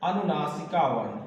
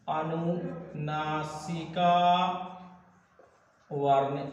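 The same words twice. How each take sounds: First: Said in the usual way. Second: "अनुनासिका" very drawn out, softer, then a pause; syllable-by-syllable dictation. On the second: Real, not acted. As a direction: stretch "अनुनासिका" slowly, syllable by syllable. Teacher stretches term out for writing. ("अनुनासिका" को खींचकर धीरे लिखवाना)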